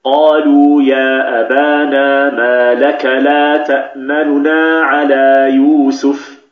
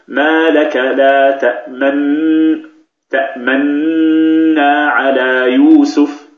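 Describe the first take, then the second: First: Slow Quranic chant, the vowel of تأمننا snatched and shortened; slow tajweed recitation with تأمننا said quickly and lightly; recited with ikhtilas. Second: Slow chant with تأمنا as one merged, long-humming nun and a slightly voiced lip rounding; slow Quranic recitation, تأمنا nun merged and held; exaggerated ishmam. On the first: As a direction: chant it slowly, clipping the first nun's vowel in تأمننا. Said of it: "كيف ننطقها بالاختلاس؟". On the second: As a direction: overdo the rounding in تأمنا so the timing is clear. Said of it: "سأقربها لكم حتى تفهموا أين الضم".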